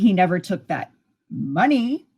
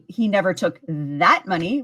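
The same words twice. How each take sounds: First: The stress falls on the word money. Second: The stress falls on the word that. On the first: He took something else. "which could mean he took something else" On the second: He took other money. "which could mean he took other money"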